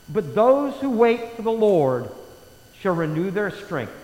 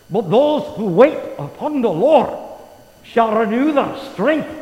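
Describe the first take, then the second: First: It is read in a plain reading voice. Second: It is read in a dramatic movie-style voice.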